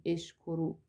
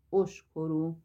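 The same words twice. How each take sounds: First: اشکرو with the first vowel as e, eshkoru; wrong form with e. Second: اشکرو with the first vowel as a rounded o, oshkoru; correct form with o. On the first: Teacher to students, showing the wrong vowel: اشکرو with e. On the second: Teacher to students, modelling the right vowel: اشکرو with o. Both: Shown as a demonstration.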